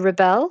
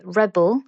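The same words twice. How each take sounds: First: The stress is on the second syllable. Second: The stress is on the first syllable. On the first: It is used as a verb. "to rebel, which is a verb" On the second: It is used as a noun. "rebel, which is a noun. And as you can hear, the pronunciation changes"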